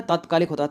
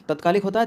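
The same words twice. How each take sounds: First: तात्कालिक with long first vowel, falling; correct form demo. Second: तात्कालिक with short first vowel, higher, questioning rise; wrong form demo. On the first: Teacher giving the right spelling, long "taat" with falling tune. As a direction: say तात्कालिक as "taat-kaalik", settling. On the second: Teacher testing a wrong spelling, short "tat" with rising tune. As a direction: say तात्कालिक as "tat-kaalik", lifted at the end. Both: Shown as a demonstration.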